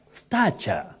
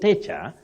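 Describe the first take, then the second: First: The first vowel sounds like the 'a' in 'cat'. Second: The first vowel sounds like the 'a' in 'state'. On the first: The speaker calls it right. "That A takes the low front sound A" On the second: The speaker calls it wrong. "don't say stature"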